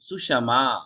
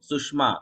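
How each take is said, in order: First: The sh sound is full, with its own vowel. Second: The sh sound is clipped, joined straight to ma. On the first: The speaker calls it right. "और मैं कर रहा हूं सुषमा" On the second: The speaker calls it wrong. "ये एक उच्चारण जो आप करते हो"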